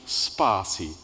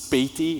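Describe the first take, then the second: First: The name is said as spa plus see. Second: The name is not said as spa plus see. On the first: The speaker calls it right. "with the word spa and then C" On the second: The speaker calls it wrong. "Spati is a, is a popular one"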